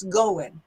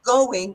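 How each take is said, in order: First: "going" said as goin', ending in n; dropped G. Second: Said in the usual way. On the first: Shown as a demonstration. Teacher points out "going" with dropped g. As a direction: drop the final g of "going". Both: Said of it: "the G dropped off the verb".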